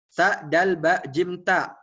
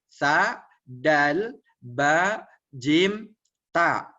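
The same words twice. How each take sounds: First: The letters are read very quickly together. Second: The letters are read slowly, one by one. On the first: "udah lancar lagi, terus tingkatkan lagi" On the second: "Mulai dari pelan dulu. Pelan dulu"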